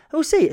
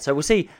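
First: "We'll see" said much higher and punchier. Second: Said in the usual way. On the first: Real, not acted. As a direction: jump up in pitch on "We'll see". Repeated phrase, tone shift.

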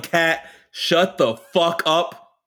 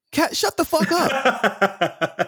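First: Slow, stretched "Kat, shut the fuck up"; lightly hammed outburst; mock yell. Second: High, very slow "Kat, shut the fuck up"; mock exasperated put-down; drawn-out dismissive snap. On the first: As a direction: drag every word out. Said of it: "If Maddie would have yelled". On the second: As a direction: stretch it out with contempt. Quoting Maddie, mocking.

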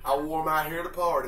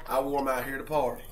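First: Said in the usual way. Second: Quicker throwaway repeat of "I wore 'em out here to party"; fast repeat. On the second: Acted. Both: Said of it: "repeats the line".

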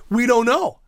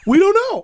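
First: Said in the usual way. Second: Squeaky high-pitched we don't know; teasing high voice, stretched out; high sing-song repeat. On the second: Shown as a demonstration.

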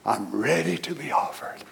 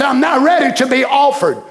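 First: Soft, calm, settled; calm readiness. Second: Joyful. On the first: Retold or imitated. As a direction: say it softly like a man at peace. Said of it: "Look at his attitude". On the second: Acted. Preacher quoting Paul with joy.

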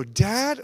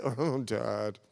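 First: DAD called out high and loud; an eager kid's bright, raised DAD; children's eager call. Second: OH, DAD sighed out low; a deflated, dropping OH, DAD; children's let-down groan. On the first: Children glad to see their father, DAD called high and loud. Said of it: "When your children say dad, do they go". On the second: Children dismayed by their father, OH, DAD low and deflated. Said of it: "do they go, "Dad"? "Oh, Dad". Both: Retold or imitated.

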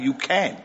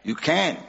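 First: Soft, encouraging "you can"; gentle reassurance. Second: Quieter, falling "You can"; softer reassurance. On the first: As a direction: reassure him quietly. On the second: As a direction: settle it gently. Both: Real, not acted. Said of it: "La, ya akhi".

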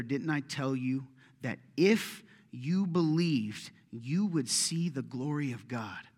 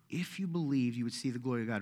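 First: Drawn out, stressing if and you; slow, weighty rebuke. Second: Said in the usual way. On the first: Acted. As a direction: lay each word down deliberately as a gentle rebuke. Jesus rebukes Martha. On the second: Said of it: "Remember that".

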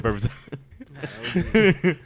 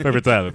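First: Very slow, high, laughing through the words; cracking up mid-phrase. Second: Said in the usual way. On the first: Real, not acted. Laughing repeat.

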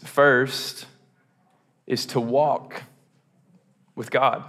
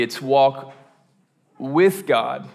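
First: "walk" drawn out and lifted; slow, deliberate weight on "walk"; stress on walk. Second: "with" lifted and set apart before "God"; the weight moves to "with", not "walk"; stress on with. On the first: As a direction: lean on the word "walk", then pause before "with God". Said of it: "Emphasis on walk". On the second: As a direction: lean on "with" in "with God". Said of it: "more uniquely". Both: Shown as a demonstration.

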